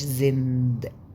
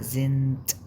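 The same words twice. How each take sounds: First: The word ends with a voiced d sound. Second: The word ends with a voiceless t sound. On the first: The speaker calls it wrong. "ما قلتش زند" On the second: The speaker calls it right. "الدي في الاخر بنطق تي"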